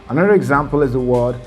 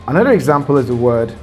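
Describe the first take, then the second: The two takes are said the same way.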